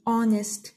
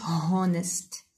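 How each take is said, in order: First: Honest with a silent H, onest; correct pronunciation. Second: Honest with the H breathed, h-onest; wrong pronunciation. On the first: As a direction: start honest on the vowel. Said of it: "We say honest". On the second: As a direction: sound the H in honest. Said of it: "not honest". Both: Shown as a demonstration.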